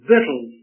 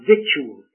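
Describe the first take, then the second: First: It is said like 'vittles'. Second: It is said as it is spelled. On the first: The speaker calls it right. "victuals is the pronunciation" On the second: The speaker calls it wrong. "not victuals. It looks like if you're educated, you'd call it that"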